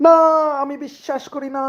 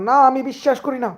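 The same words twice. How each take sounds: First: Hushed dramatic disbelief. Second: Dramatic disbelief. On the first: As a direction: let the denial collapse into a stunned hush. (উঁচু কিন্তু খুব নরম গলায় ভেঙে পড়া অবিশ্বাস) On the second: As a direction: play the stunned lover refusing the news. (উঁচু গলায় নাটকীয় অবিশ্বাস) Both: Acted. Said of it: "সেই রিয়াকশন".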